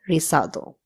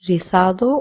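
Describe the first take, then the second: First: The z sounds like English s. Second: The z sounds like English th. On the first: "or so" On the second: "the Z will be pronounced as th"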